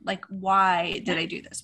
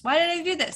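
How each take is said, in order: First: Said in the usual way. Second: Higher, despairing "did" in Why did I do this?; exasperated repeat. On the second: Real, not acted. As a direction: throw up your hands, pitch up on "did".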